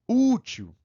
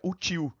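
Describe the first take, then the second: First: The stress falls on the first syllable. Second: The stress falls on the last syllable. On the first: The speaker calls it right. "É diferente" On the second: The speaker calls it wrong. "se eu não colocar acento"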